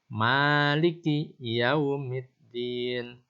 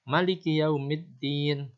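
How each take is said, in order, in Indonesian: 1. Huruf vokal pertama dari 'Maliki' dibaca panjang. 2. Huruf vokal pertama dari 'Maliki' dibaca pendek. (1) "Kita seringkali membaca panjang" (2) "dikosorkan atau dibaca pendek"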